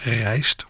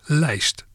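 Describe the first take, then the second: First: The word begins with an R sound. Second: The word begins with an L sound.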